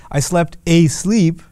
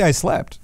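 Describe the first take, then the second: First: "I slept asleep" slow, with "asleep" drawn out; emphatic demo phrase. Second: Said in the usual way. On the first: Shown as a demonstration. Teacher showing the Arabic emphasizer, "asleep" slow and emphatic. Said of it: "But they'll say". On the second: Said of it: "You could just say".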